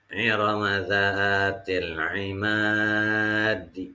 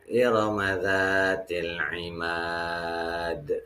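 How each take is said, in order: First: The last word runs on, ending in a vowel. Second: The last word is stretched, ending in an echoing consonant. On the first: The reading continues on without stopping. "Kalau dibacanya wasol" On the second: The reading stops at the end of the verse. "Itu kalau dibaca wa waqaf"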